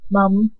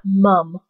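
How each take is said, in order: First: Canadian "mum", as he says it; Canadian accent. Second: "mum" drawn out the way he doesn't say it; not his pronunciation. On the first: Vlogger correcting herself on Max's word, Canadian "mum". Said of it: "He says mum". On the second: Vlogger showing how Max doesn't say it, slow contrasting "mum". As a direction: stretch "mum" as the contrasting version. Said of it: "He says mum, not, not mum". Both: Shown as a demonstration.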